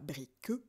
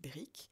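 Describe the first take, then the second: First: The final e is sounded as an extra syllable. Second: The final e is silent, one syllable only. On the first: The speaker calls it wrong. "je ne dis pas brique" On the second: The speaker calls it right. "je dis brique"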